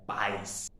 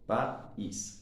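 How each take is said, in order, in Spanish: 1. El acento cae en la A, una sílaba. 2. El acento cae en la I, dos sílabas. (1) "el acento fuerte volvería nuevamente a la vocal abierta, en este caso la A" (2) "el acento fuerte está en la vocal cerrada, en este caso la I"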